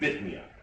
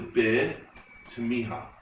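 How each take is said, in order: First: The term is said in a clipped, shortened form. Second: The term is said in its full form. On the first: The speaker calls it wrong. "So people say in yeshiva" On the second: The speaker calls it right. "But it's really"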